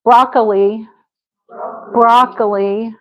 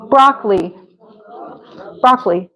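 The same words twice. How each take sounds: First: "Broccoli" as BROCK-uh-lee, three syllables; added uh. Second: "Broccoli" as BROCK-lee; two-syllable broccoli. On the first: Teacher offers another option, broccoli with middle uh. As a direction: put a little uh inside broccoli. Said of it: "we could put a little". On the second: Teacher models her own way, broccoli in two syllables. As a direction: drop the middle vowel in broccoli. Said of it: "That's how I say it". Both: Shown as a demonstration.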